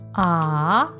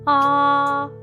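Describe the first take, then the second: First: The pitch rises from mid to high. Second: The pitch stays high and level. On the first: "your voice to go up" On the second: "keep your voice high and flat"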